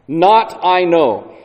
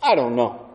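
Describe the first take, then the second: First: "Not I know" slow, "not" stressed and falling; slow, stiff word-for-word "Not I know"; literal Greek order. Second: Said in the usual way. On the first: Shown as a demonstration. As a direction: read "Not I know" deliberately as a literal gloss. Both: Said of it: "or as we would say it".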